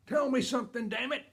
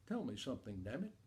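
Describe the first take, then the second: First: High, loud shout of frustration; fed-up bellow, pitched way up; exasperated dad's outburst. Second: Low, hushed and sly; soft, under-the-voice swearing; quiet repeat of dad's curse. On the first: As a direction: yell it like a father at the end of his patience. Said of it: "then he says the magic word". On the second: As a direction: drop it low, like a kid slipping in a forbidden word. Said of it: "I turn to my sister and I say". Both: Retold or imitated.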